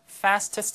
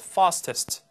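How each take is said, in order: First: It is said with an American pronunciation. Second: It is said with a British pronunciation. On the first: "fastest 하지 않고" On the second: "영식 fastest"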